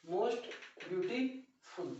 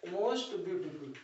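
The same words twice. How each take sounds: First: Most beautiful stretched out very slowly, trailing softer; drawn-out teacher repetition of most beautiful; slow model phrase. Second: Said in the usual way. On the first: Shown as a demonstration. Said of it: "repeats it slowly". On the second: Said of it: "first take of the word".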